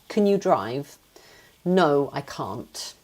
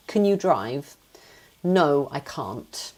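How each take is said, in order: First: It is said in a British accent. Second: The same.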